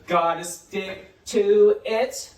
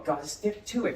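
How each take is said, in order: First: Loud, drawn-out "Gotta stick to it"; slow modelling. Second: Said in the usual way. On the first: Shown as a demonstration. Teacher models "Gotta stick to it" for pupils, very slowly. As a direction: stretch every word of "Gotta stick to it".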